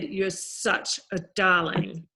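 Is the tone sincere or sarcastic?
sarcastic. It is said with a sarcastic attitude.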